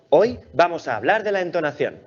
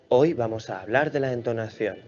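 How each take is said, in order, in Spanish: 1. Se dice con una voz animada y variada. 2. Se dice con una voz plana y monótona. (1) "una entonación más viva y con más matices" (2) "Con esa entonación dormirías a cualquiera"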